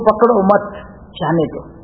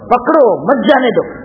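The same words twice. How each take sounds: First: The pause comes after the second word. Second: The pause comes after the first word. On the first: Do not hold on, let it go. The speaker calls it right. "ભગવાનને કેવું તો" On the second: Hold on, do not let go. The speaker calls it wrong. "આપણે અલ્પવિરામ પકડો આગળ બોલીએ"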